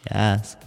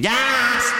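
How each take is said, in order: First: It is said quietly and plainly. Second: It is said loudly and excitedly.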